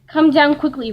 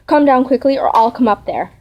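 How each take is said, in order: First: Loud, higher storybook roar. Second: Restrained storybook shout; calling out. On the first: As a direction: roar the order out. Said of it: "roared Blue Bear". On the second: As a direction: call out firmly, without full force. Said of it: "called out to his wife with all his might". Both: A narrator's reading.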